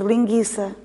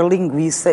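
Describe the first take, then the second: First: "linguiça" with silent u, as ghi. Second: "linguiça" with the u sounded, as gwi; u pronounced. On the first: Interviewer reads like a foreigner would, "linguiça" with silent u. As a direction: say "linguiça" with hard g straight into i. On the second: Interviewer gives the word as written, u pronounced in "linguiça". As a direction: say "linguiça" with a clear w after the g. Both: Shown as a demonstration. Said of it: "eu ia ler linguiça".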